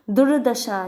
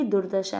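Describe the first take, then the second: First: दुर्दशा with the r misplaced, said louder; wrong pronunciation. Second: दुर्दशा said as dur-dasha, r closing the first syllable; correct pronunciation. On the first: Teacher demonstrates the misspelt form to students, wrong pronunciation. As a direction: say दुर्दशा the mistaken way, with emphasis. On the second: Teacher gives the correct form after the mistake, correct pronunciation. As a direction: model दुर्दशा with the r right after दु. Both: Shown as a demonstration. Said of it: "जबकि दुर्दशा है".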